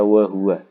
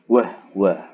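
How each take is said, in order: First: The h carries a u vowel. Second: The h has no vowel after it. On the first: This is the reading with dhammah on the ha. "imam kita membaca wa huwa" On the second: This is the reading with sukun on the ha. "Kalau qaulun membaca dengan wah wa"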